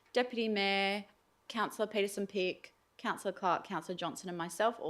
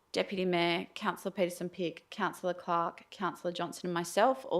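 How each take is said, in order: The two takes are said the same way.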